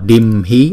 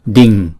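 First: The middle consonant is an m sound. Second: The middle consonant is an ng sound. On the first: The speaker calls it wrong. "chúng ta không đọc là dimhi" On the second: The speaker calls it right. "mà đọc là ding"

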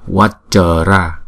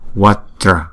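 First: The word is said with three syllables. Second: The word is said with two syllables. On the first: The speaker calls it wrong. "Chứ chúng ta không đọc là Vajra. Nếu mà chúng ta đọc Vajra thành ba âm rồi" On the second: The speaker calls it right. "Ráp lại là hai âm là Vajra"

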